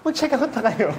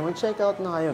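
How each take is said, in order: First: The voice sounds fearful and urgent. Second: The voice sounds sad and regretful. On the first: They may miss out if they are too slow. "Yung fear na hindi na nila mati-check out kapag ka ang bagal nila" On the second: You will regret it if you don't. "nalulungkot na parang mariregret nyo yan pag hindi"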